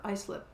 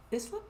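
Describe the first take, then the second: First: "Islip" said EYE-slip; "Islip" with a long i; long-i pronunciation. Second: "Islip" said ISS-lip; "Islip" starting like "iss"; short-i pronunciation. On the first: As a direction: say "Islip" starting like "eye", questioning. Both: Shown as a demonstration. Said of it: "how that's pronounced".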